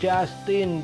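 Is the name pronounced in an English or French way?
English. It is pronounced the English way. The speaker calls it wrong. "kalau di bahasa Inggris orang sering bacanya Justin"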